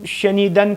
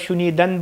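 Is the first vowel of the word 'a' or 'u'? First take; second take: a; u. First: The first vowel is an open 'a' sound. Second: The first vowel is a rounded 'u' sound. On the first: The speaker calls it right. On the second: The speaker calls it wrong.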